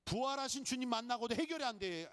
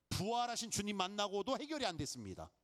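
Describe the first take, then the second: First: 해결이 stressed, whole line pitched higher; emphatic repeat. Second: Said in the usual way. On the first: Shown as a demonstration. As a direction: drive home 해결이 with a lifted voice. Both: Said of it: "잘 생각하셔야 돼요".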